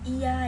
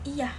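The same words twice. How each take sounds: First: The word is drawn out long and heavy. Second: The word is short and firm. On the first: The person agrees reluctantly or lazily. "dengan durasi panjang berat" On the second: The person agrees, or is angry. "pendek dan tegas"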